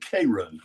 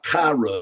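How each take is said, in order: First: It uses the local regional pronunciation. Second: It uses the standard, non-local pronunciation. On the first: The speaker calls it right. "It's Houston and Cairo" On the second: The speaker calls it wrong. "it's not Cairo"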